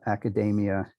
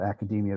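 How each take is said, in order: First: It is said to rhyme with macadamia. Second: It is said the usual established way. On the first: It is a new form modelled on another word. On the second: It is the established form.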